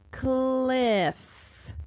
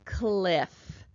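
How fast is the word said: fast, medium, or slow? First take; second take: medium; fast. First: The word is said at a moderate speed. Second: The word is said quickly as one unit. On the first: "Let's sound it out again a little faster" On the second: "And one more time a little faster"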